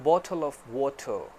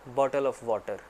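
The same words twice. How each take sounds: First: It is said in a British English accent. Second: It is said in a Pakistani English accent. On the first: "accent ले लें British वाला" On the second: "Pakistani accent में हम कहते हैं"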